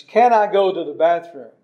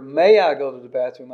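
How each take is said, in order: First: CAN leaned on, asking ability; can stressed. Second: MAY leaned on, asking permission; may stressed. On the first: Pastor demonstrating the wrong question, can stressed. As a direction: lean on "Can". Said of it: "It was the wrong question". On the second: Pastor demonstrating the right question, may stressed. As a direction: lean on "May". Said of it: "I was asking her permission". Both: Shown as a demonstration.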